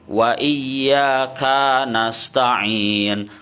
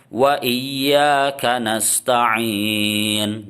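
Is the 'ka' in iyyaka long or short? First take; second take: long; short. First: The 'ka' syllable is drawn out long. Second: The 'ka' syllable is short and flows straight on. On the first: The speaker calls it wrong. "Ada sebagian orang yang dipanjangkan, itu salah" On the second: The speaker calls it right. "ka-nya itu pendek... Jadi langsung sambung"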